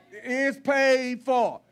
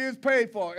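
First: Slow, weighty "paid for"; slow emphasis. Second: Said in the usual way. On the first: Shown as a demonstration. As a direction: lean on every word, slowly. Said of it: "but it's paid for". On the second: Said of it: "You ain't got to rejoice with me".

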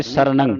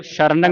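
First: ਸਰਣੰ opening on a clean "s", not "sh"; plain s sound. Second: ਸ਼ਰਣੰ opening on "sh"; wrong "sh" sound. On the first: Teacher models the correct letter, ਸਰਣੰ with initial "s". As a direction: begin ਸਰਣੰ with a crisp s. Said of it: "ਸੱਸੇ ਦੀ ਆਵਾਜ਼ ਉਚਾਰਨ ਕਰਨੀ". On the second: Teacher shows what not to say, ਸ਼ਰਣੰ with initial "sh". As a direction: begin ਸ਼ਰਣੰ with a hushing sh. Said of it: "ਸ਼ਰਣੰ ਨਹੀਂ ਬੋਲਣਾ". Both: Shown as a demonstration.

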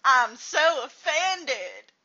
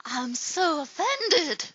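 First: Slow, louder drawn-out offended line; mock offended, better take. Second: Slow drawn-out offended line; mock offended. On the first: A second, louder take of a mock offended line. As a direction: lean harder on so. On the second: A first take of a mock offended line. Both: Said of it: "I did that better than you".

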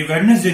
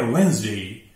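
First: वेडनेसडे with the d sounded; wrong pronunciation. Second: वेंसडे as WENZ-day; silent d. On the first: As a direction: say वेडनेसडे as wed-nes-day. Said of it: "ये वेडनेसडे नहीं है". (गलत उच्चारण, ड बोलकर वेडनेसडे) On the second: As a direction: say वेंसडे in two syllables, no first d. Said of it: "डी silent है". (सही उच्चारण, बिना ड के वेंसडे) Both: Shown as a demonstration.

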